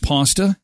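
It is said the American way.

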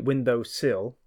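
The second word is said as sill. This is how people from elsewhere say it. "like you'll say window sill"

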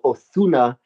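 The name is said with z lisped like th. This is how speakers from Spain say it. "they'll even put a lisp on it. They'll go Ozuna if they speak Castellano"

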